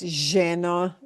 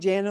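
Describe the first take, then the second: First: It is said in an Argentine Spanish accent. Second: It is said in a neutral Spanish accent. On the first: "she has a very Argentine accent" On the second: "instead of it lleno"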